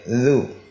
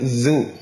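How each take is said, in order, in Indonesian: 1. Konsonan dilepas tanpa udara yang keluar terdengar. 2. Konsonan dilepas dengan udara yang keluar terdengar. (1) "tapi tidak tidak keluar angin" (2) "Dan jangan keluar angin. Dzu, salah"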